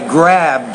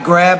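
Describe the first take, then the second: First: The word ends with a clear final d sound. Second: The word ends without the final d sound. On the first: The speaker calls it right. "instead of" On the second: The speaker calls it wrong. "You seem to sometimes not pronounce those particular sounds when they occur at the ends of words"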